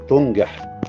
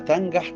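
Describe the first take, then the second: First: The verb is said in its causative form. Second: The verb is said in its plain, intransitive form. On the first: God makes the way of the wicked prosper. The speaker calls it wrong. "البعض ينطقها" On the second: The way of the wicked prospers by itself. The speaker calls it right. "النطق الصح"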